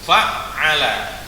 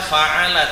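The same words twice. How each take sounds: First: The middle consonant is doubled and held longer. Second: The middle consonant is short, not doubled. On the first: The speaker calls it right. "ain di tengahnya itu ada tasdid" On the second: The speaker calls it wrong. "bukan dibaca fa'ala"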